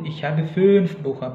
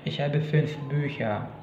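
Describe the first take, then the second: First: The ü vowel in fünf is long. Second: The ü vowel in fünf is short. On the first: The speaker calls it wrong. "bukan seperti itu" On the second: The speaker calls it right. "tapi ich habe fünf Bücher"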